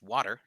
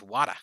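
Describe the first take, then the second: First: Said in a Utah accent, r pronounced. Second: Said in a Boston accent, r dropped. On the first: "If I use my Utah accent" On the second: "if I use my Boston accent"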